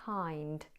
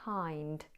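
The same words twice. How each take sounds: First: The vowel glide is short and quick. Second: The vowel glide is short and quick.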